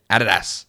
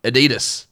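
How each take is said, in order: First: ADIDAS as "AD-uh-das"; "Adidas" the Australian way, AD-uh-das; Australian-accented Adidas. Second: ADIDAS as "uh-DEE-dus"; "Adidas" the rejected way, long DEE; wrong American Adidas. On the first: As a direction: stress the AD in "Adidas", Australian style. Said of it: "I say it with an Australian accent". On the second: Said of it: "But it's not Adidas". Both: Shown as a demonstration.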